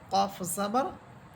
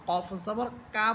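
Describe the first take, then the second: First: The final vowel is short and dark. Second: The final vowel is long and open. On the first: The speaker calls it right. "আকার ছাড়া বলবো" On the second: The speaker calls it wrong. "বলা যাবে না"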